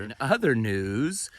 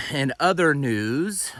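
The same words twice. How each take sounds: First: Said in the usual way. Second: Slow, loud news anchor intro; newscaster voice. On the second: Shown as a demonstration. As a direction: announce it like a TV anchor. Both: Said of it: "sound like a newscaster".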